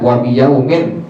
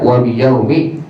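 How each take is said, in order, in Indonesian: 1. Kata terakhir berakhir dengan bunyi n. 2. Kata terakhir berakhir dengan vokal biasa. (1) "tidak dibaca wa biyaumin" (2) "tapi dibaca wa biyaumi"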